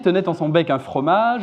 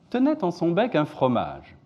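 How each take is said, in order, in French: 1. La hauteur reste plutôt plate tout au long. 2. La hauteur descend sur toute la phrase. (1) "j'ai fait à peu près aucune intonation significative" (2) "descendante sur le deuxième"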